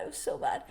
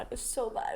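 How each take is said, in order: First: High whiny wail. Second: Said in the usual way. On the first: Real, not acted. Repeats lament, pitched up high.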